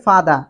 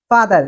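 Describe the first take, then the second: First: 'ফাদা' with the r dropped; British pronunciation. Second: 'ফাদার' with final r sounded; American pronunciation. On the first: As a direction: end 'ফাদা' on an open 'aa'. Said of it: "ব্রিটিশরা বলে ফাদা". (British ধাঁচে 'ফাদা', র ছাড়া) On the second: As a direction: end 'ফাদার' on a clear r. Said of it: "আমেরিকানরা এটাকে বলে". (American ধাঁচে 'ফাদার', র সহ) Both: Shown as a demonstration.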